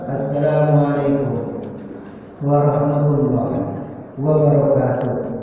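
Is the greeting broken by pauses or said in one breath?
pauses. The greeting is broken up by pauses. The speaker calls it wrong. "jelas salah. Ya, karena belum ada koma itu"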